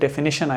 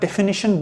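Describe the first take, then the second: First: It is said quickly, the middle vowel reduced. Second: Each syllable is pronounced slowly and distinctly. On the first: "जल्दी बोलेंगे तो डेफिनेशन आएगा" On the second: "अगर इसको मैं बहुत ही प्रोनाउंस करके बोल रहा हूं"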